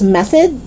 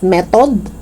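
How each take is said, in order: First: Tongue out mid "method"; TH sound. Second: "method" as "met-od"; hard T and full O in "method". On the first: Teacher correcting learners, "method" with clear TH. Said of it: "It's method". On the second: Teacher showing learners the mistake, "method" as "metod". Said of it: "It's not method". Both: Shown as a demonstration.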